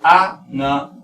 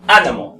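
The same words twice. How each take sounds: First: Animal in English, split into separate syllables; slow English breakdown of animal with pauses. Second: Animal quick and whole, punched at the start; loud first syllable on Animal, falling away; English Animal, firmly front-stressed. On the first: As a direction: sound out animal piece by piece. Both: Shown as a demonstration. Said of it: "aquí la pronunciación es".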